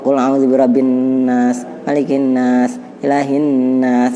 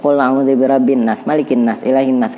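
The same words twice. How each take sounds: First: The nasal n sounds are held and drawn out. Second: The nasal n sounds are clipped and dropped. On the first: The speaker calls it right. "itu kan agak tertahan, kita tahan juga" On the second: The speaker calls it wrong. "kan hilang anunya dengungnya"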